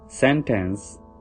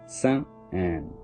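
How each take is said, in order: First: The T is a strong, clear T. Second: The T becomes a stop into an N. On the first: "we sound T very strongly, regular T" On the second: "T will sound like an N"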